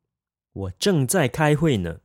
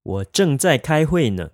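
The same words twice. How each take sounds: First: Said in the usual way. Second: Slower, carefully spaced drill; slow and clear model sentence; slow practice repeat. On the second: Shown as a demonstration. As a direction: say it slowly for learners to copy. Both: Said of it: "Let's practice saying that".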